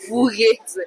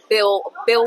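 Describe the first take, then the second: First: The first name sounds like 'Bo'. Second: The first name sounds like 'Bill'. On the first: The speaker calls it wrong. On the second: The speaker calls it right.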